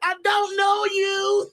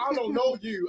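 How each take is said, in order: First: It is said in a Bobby Hill voice. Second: It is said in his normal voice.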